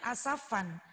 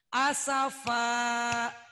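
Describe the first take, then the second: First: The word ends with an added n sound. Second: The word ends on an open vowel. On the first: The speaker calls it wrong. "jangan asafan karena berada di akhir kalimat" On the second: The speaker calls it right.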